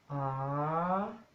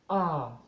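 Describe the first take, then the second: First: It is said on a rising tone. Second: It is said on a low tone. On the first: "tono creciente" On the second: "tono bajo"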